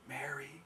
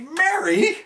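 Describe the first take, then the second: First: It is said tenderly and softly. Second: It is said in an exasperated manner.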